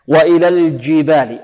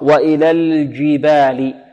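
First: The j sound is mixed with a d sound. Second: The j sound is pure, without a d. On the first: The speaker calls it wrong. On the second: The speaker calls it right.

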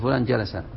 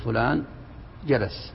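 First: The last word ends on a short vowel. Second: The last word ends on a bare consonant. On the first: The speaker calls it wrong. "ما تقول فلان جلس" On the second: The speaker calls it right. "تقول فلان جلس"

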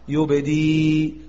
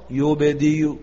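First: The final sound stops with no vowel. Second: The final sound ends with a faint u vowel. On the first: "نقف بالسكون المحض" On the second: "نقف بالروم فنأتي ببعض الضم"

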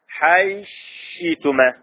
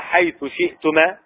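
First: The words merge and the glottal stop is dropped. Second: The words stay separate and the glottal stop is kept. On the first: "بهذا الإضغام وهذا الإبدال في الهمس" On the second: "بدل حيث شئتما"

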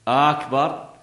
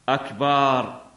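First: The opening vowel is lengthened. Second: The vowel after the B is lengthened. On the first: It turns the word into a question. "نفس الشيء، تكون استفهام" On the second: It changes the word to mean a drum. "ماذا مد؟ الباء"

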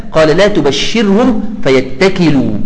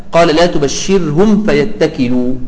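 No difference in how they are said.

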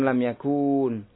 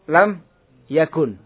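First: The vowel before the final n is long. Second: The vowel before the final n is short. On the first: The speaker calls it wrong. "bukan lam yakun" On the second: The speaker calls it right.

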